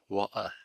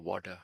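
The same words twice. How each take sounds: First: It is said with a British accent. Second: It is said with an American accent.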